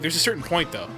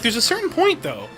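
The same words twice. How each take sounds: First: It is said in a lower-pitched voice. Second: It is said in a higher-pitched voice. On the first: This is how the other person would sound talking normally. "if you were just talking normally, ... you're just lower" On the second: This is how the other person actually sounds. "you're like"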